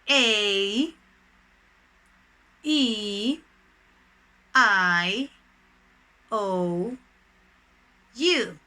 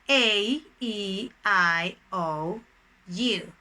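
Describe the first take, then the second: First: The letters are said slowly. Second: The letters are said fast.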